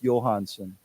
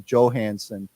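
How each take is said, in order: First: The name starts with a Y sound. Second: The name starts with a J sound. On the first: The speaker calls it right. "the J is pronounced as a Y" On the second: The speaker calls it wrong. "many Americans don't know that and they just say Johansson"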